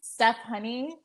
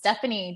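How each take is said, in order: First: It is said slowly as two separate words. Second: It is said fast, blending into one word.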